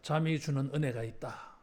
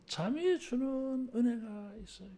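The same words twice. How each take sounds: First: Said in the usual way. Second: 잠이를 힘주어 또박또박 선창하기; 회중에게 잠이 주는 은혜가 있어요를 천천히 또박또박. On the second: Shown as a demonstration. (회중이 따라 하도록 잠이에 힘주어 선창) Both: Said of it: "따라하겠습니다".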